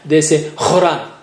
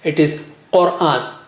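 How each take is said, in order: First: It starts with a raspy throat kh sound. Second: It starts with a deep back q sound. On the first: The speaker calls it wrong. "for Qa, they say Kha" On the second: The speaker calls it right. "It is Quran, Qa"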